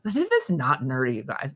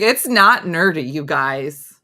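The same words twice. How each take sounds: First: The s sounds are said with a lisp. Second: The s sounds are said clearly without a lisp.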